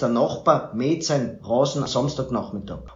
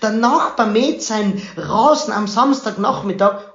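First: It is said in a droopy, dejected way. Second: It is said in an uplifted, happy way.

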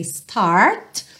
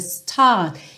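First: It is said with an American accent. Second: It is said without an American accent. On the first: "que poderia ser start, numa pronúncia mais americana" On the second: "mas aqui então"

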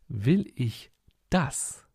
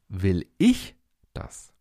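First: The stress is on "Will". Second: The stress is on "ich".

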